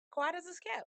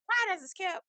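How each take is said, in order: First: Said in the usual way. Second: High sing-song aside. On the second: Shown as a demonstration.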